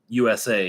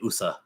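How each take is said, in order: First: It is spoken as three separate letters. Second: It is spoken as one blended word. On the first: The speaker calls it right. "It's an acronym. It's like U S A" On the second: The speaker calls it wrong. "You don't say U S A"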